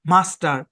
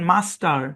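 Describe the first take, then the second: First: The first vowel is a long open 'ah'. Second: The same.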